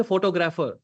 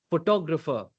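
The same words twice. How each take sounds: First: PHOTOGRAPHER stressed on the first syllable, PHO-to-grapher; misplaced stress. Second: PHOTOGRAPHER stressed on TOG; correct stress. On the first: Coach shows learner what not to say, misplaced stress. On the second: Coach shows learner the right accentuation, correct stress. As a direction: hit the second syllable in PHOTOGRAPHER. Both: Shown as a demonstration. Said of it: "I don't say photographer".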